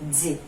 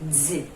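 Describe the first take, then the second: First: The d is released with a 'z' sound. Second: The same.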